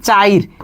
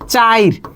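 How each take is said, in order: First: The i vowel comes before the r sound. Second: The same.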